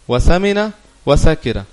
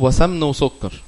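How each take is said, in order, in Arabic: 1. الكلمات بتتنطق 'samina wa sakira'. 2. الكلمات بتتنطق 'samn wa sukkar'. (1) "هي المفروض تبقى ايه؟" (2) "ايه جاب السمن والسكر ليعقوب؟"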